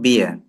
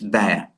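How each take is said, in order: First: The vowel sounds like the one in 'beer'. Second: The vowel sounds like the one in 'bear'. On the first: The speaker calls it wrong. "It's not beer" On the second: The speaker calls it right. "It's bear"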